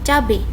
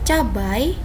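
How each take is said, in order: First: The word ends in an e sound. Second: The word ends in an ai sound. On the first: The speaker calls it wrong. "bukan cabe" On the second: The speaker calls it right. "yang benar adalah cabai"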